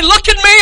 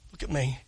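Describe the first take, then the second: First: Shout. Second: Quiet. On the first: Preacher pleading to the congregation in a shout. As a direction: look at me shouted high and loud, me punched. Repeated at full force. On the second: Preacher quietly asking the congregation to look at him. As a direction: Look at me dropped soft and low, me falling. First soft take. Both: Real, not acted.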